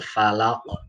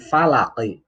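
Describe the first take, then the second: First: The word ends on a stopped final consonant. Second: The word ends with an added short vowel.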